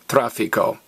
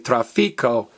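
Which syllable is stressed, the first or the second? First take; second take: first; second. First: The stress is on the first syllable. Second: The stress is on the second syllable. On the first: The speaker calls it right. "stress me, tráfico" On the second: The speaker calls it wrong. "don't stress the next to last vowel. Don't say tráfico"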